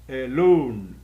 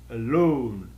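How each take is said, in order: The two takes are said the same way.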